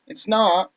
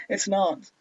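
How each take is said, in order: First: Higher character voice slipping into American; American-sounding "not", pitched up; accidental American accent. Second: Higher retake dropping the American vowel; attempted non-American accent. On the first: Acted. Natsuki denies it's boring, in an accidental American accent. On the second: Retrying the line after slipping, avoiding the American accent. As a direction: correct the American "not" to British, pitched up. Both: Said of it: "That's an American accent".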